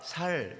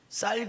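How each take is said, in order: First: It is said with the Gyeongsang initial consonant. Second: It is said with the standard initial consonant. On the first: The speaker calls it wrong. "경상도 사람들은 쌀을 못해서 살살 그런다는데" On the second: The speaker calls it right. "쌀 그래봐"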